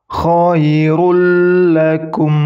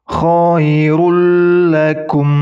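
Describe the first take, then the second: No difference in how they are said.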